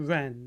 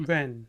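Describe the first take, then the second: No difference in how they are said.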